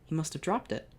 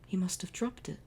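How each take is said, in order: First: Said in the usual way. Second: Unvoiced hushed line; whispered realization. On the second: Shown as a demonstration. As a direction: breathe it in wonder.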